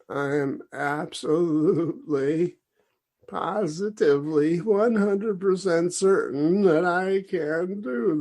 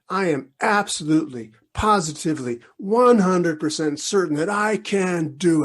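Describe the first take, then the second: First: It is said in a mournful, self-pitying tone. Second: It is said in a firm, confident tone. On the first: The speaker does not really believe it. The speaker calls it wrong. "say it like you are, you know, crying in your milk" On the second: The speaker truly believes it. The speaker calls it right. "Say it like that, and and and really mean it"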